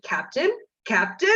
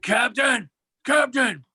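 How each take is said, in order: First: Lightly imitated Batman call; mild mock shout, retelling a friend's Batman. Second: Hammed-up superhero shout, pitched up; Christian Bale Batman. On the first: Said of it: "in a Batman voice, he shouted". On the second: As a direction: shout it as a mock masked vigilante. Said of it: "doing the Christian Bale Batman voice".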